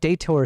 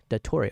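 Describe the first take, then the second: First: The name is said in an Americanized way. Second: The name is said in a foreign, non-American way. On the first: "sounds cooler as an American. It's just more Americanized" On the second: "Dator pronounced dat datore"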